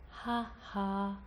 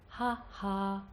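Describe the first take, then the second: The two takes are said the same way.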